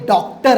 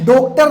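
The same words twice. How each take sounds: First: The first vowel is an open 'aw' sound. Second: The first vowel is a rounded 'oh' sound. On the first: The speaker calls it right. "ओ झाला नाही, ऑ झाला" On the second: The speaker calls it wrong. "ते डॉक्टर नसतं"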